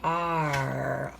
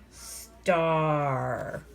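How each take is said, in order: First: "Star" broken into s, t and a long "ar"; slowly sounded out. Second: "star" as one drawn-out word, long s into long "ar"; slowly blended. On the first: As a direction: stretch "Star" sound by sound with gaps. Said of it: "Go slowly and see what changes". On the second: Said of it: "Now it says star". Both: Shown as a demonstration.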